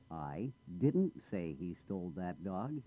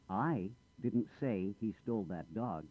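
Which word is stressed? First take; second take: didn't; I. First: The stress falls on the word didn't. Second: The stress falls on the word I. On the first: Something was said, but not that. "I did say something, but not that" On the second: Someone else said it. "I didn't say anything. Someone else said it"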